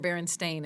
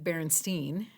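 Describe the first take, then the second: First: The last syllable rhymes with 'rain'. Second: The last syllable rhymes with 'line'.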